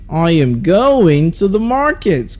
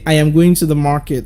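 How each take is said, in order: First: The words going and market are stressed. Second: It is said flat, with no stressed words.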